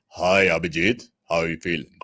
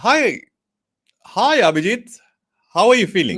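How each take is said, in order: First: It is said in an altered voice. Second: It is said in his normal voice.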